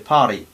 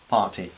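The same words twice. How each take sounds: First: It is said with an American accent. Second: It is said with a British accent. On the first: "esto en inglés americano sería más, ... esto se dice party" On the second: "Pero en inglés británico es"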